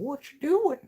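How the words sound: It is said as Herbert the Pervert.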